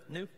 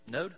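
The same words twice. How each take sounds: First: "Knew" said as noo, a quick fix; "Knew" with a questioning rise; corrected past tense. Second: "Knowed" said as nohd, trying it out; "Knowed" with a questioning rise; wrong past tense. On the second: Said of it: "Knew? Whatever". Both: Real, not acted.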